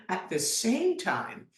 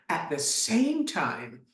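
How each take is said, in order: Both takes have the same delivery.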